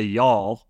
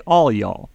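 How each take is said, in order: First: Y'all said as one slurred syllable "yawl"; demo y'all. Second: "all y'all" with weight on all, falling at the end; demo all y'all. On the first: Co-host explains Southern grammar, demo Southern y'all. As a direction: say "y'all" as a single drawn word. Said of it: "if you ever hear somebody say". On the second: Co-host explains plural form, demo all y'all. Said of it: "you say". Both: Shown as a demonstration.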